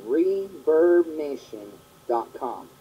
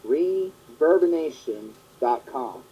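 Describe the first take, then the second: No difference in how they are said.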